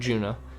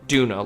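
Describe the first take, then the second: First: The word begins with a J sound. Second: The word begins with a hard D sound. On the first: This is how British players say it. "all the British ones are, are say Juna, like like J sound" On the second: This is how American players say it. "all the American ones say Duna, like hard D"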